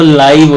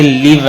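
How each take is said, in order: First: "لائیو" with the vowel of eye; long-i pronunciation. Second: "لیو" with a short i, as in give; short-i pronunciation. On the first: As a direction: say "لائیو" to rhyme with five. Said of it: "وہ لائیو ہوتا ہے". ("لائیو"، آئی کی لمبی آواز کے ساتھ) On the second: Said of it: "یہ لیو ہے یہاں پر". ("لیو"، چھوٹی اِ کی آواز کے ساتھ) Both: Shown as a demonstration.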